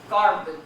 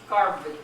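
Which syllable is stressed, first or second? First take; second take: first; first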